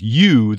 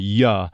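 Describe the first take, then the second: First: The word is said in its full form. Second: The word is reduced with a weak vowel.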